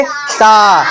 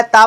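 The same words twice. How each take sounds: First: ता with a long, held "aa"; ता, stretched for pupils to repeat; drawn-out vowel. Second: Said in the usual way. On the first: Shown as a demonstration. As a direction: hold the vowel of ता. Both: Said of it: "थोड़ा खींच कर बोलेंगे".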